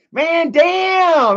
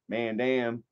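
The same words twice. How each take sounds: First: High, loud hammed-up "Man, damn"; mock shout. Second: Said in the usual way. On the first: Streamer jokingly shouts over a viewer's closed store. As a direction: blast "damn" as a jokey outburst. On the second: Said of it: "I don't wanna make a joke".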